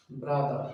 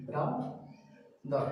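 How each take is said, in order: First: Said in the usual way. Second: Slow brother, "bra", pause, "dar"; split into syllables. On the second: Shown as a demonstration. Teacher showing students two syllables, brother slowly split. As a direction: break brother into two drawn-out beats. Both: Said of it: "তাহলে দুইটা syllable".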